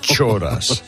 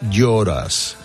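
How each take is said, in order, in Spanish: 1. La palabra empieza con un sonido 'ch'. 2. La palabra empieza con un sonido 'y'. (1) "no, no Choras" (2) "es Lloras"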